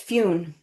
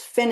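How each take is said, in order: First: The name has a long 'oo' vowel. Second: The name has a short 'i' vowel.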